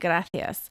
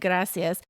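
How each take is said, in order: First: The c is pronounced like a th. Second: The c is pronounced like an s. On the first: This is the way it is said in Spain. "I know that they lisp, right?" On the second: This is the Latin American way of saying it. "Instead of saying gracias"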